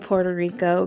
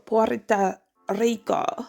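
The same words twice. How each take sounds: First: It is said with an American English pronunciation. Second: It is said with a Spanish pronunciation. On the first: This is the easier way for an American. "It's easier to just say Puerto Rico because I'm an American" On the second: This is the proper native way to say it. "I'm supposed to pronounce it"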